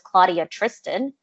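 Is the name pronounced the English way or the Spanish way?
English. The name is said with English pronunciation. This is an anglicized version of the name. The speaker calls it wrong. "because that's not my name"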